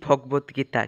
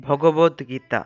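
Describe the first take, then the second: First: ভগবদ্গীতা with the middle vowel dropped; common mispronunciation. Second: ভগবদ্গীতা slowly, every vowel voiced; correct pronunciation. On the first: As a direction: say ভগবদ্গীতা as bhog-bot-gita. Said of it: "আমরা অনেকে বলে থাকি". (ভগবদ্গীতা, মাঝের স্বর বাদ দিয়ে) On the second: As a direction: say ভগবদ্গীতা as bho-go-bod-gita, drawn out. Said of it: "এর উচ্চারণ". (ভগবদ্গীতা, ধীরে প্রতিটি স্বর স্পষ্ট) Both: Shown as a demonstration.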